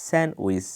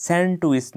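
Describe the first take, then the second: First: স্যান্ডউইচ with silent d, "sen-wis"; correct pronunciation. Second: স্যান্ডউইচ with the d sounded, "sen-tuis"; common mispronunciation. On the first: Teacher says no d here, correctly pronounced. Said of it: "ডিটা উচ্চারণ হবে না". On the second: Teacher rejects the usual form, mispronounced. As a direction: sound a stop before "uis" in স্যান্ডউইচ. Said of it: "স্যান্ডউইচ নয়". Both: Shown as a demonstration.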